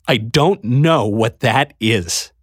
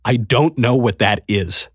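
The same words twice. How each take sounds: First: Slower, strained, words forced out; repeating it as his throat closes up; voice breaking. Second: Throat tightening on the words; man starting to choke up before the queen; held-back tears. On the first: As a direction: let the tears nearly win. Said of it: "I had to force the words out". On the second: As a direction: force it out past a lump in the throat. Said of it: "but my throat closed". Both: A narrator's reading.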